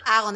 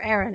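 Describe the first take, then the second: First: The name is pronounced the Dutch way. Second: The name is pronounced the English way. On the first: "is the Dutch pronunciation" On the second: "for everyone else, I'm sure Aaron is perfectly fine"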